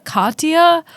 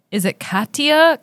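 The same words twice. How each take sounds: First: "Katya" with an open ah, KAHT-ya, higher; second puzzled try, "Katya" as KAHT-ya; questioning other pronunciation. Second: "Katya" with a flat a, KAT-ya, higher; puzzled try of "Katya" as KAT-ya; questioning one pronunciation. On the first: Co-host trying the alternative name, questioning pronunciation. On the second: Co-host recalling her doubt over the name, questioning pronunciation. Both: Retold or imitated. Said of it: "crises about being like".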